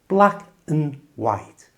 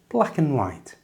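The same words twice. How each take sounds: First: The phrase is said slowly and carefully. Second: The phrase is said at a normal pace. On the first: "And the whole thing" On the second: "And at normal speed"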